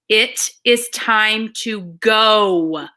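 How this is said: One word in the sentence gets strong emphasis.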